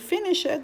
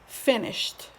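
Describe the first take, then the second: First: The ending is said as an extra syllable. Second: The ending is said as a short t sound. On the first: The speaker calls it wrong. "You will not say finish it" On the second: The speaker calls it right. "but you say finished"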